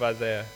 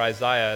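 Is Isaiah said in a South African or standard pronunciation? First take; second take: standard; South African. First: It uses the speaker's usual, standard pronunciation. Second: It uses a South African style pronunciation.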